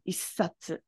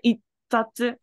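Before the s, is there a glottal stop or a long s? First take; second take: long s; glottal stop. First: The s sound is held long. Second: A glottal stop blocks the sound before the s. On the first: "it's a lot easier just to make the S long" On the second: "So you could say itsatsu"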